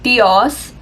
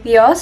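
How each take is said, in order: First: Each sound is pronounced separately and carefully. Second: The word flows smoothly as one unit. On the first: The speaker calls it wrong. "I would be really like pronouncing each thing" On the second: The speaker calls it right. "that sounds a lot smoother than how I said it"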